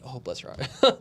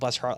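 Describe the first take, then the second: First: It is said in a mocking, Southern-style tone. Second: It is said in a sincere, warm tone.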